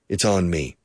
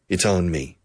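First: It is said as one contracted word. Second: It is said as one contracted word.

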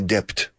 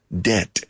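First: A B sound is heard before the final T. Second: No B sound is heard before the final T. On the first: The speaker calls it wrong. "No se dice debt" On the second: The speaker calls it right. "La B es super muda"

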